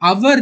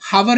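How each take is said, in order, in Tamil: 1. இந்த வார்த்தை நேரடியாக ஓர் உயிரெழுத்து ஒலியுடன் தொடங்குகிறது. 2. இந்த வார்த்தை கேட்கக்கூடிய h ஒலியுடன் தொடங்குகிறது. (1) "hour தான் ப்ரொனவுன்ஸ் பண்ணனும் அதான் கரெக்ட்டான ப்ரொனவுன்சியேஷன்" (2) "hour ன்னு ப்ரொனவுன்ஸ் பண்றோமா அது தப்பு"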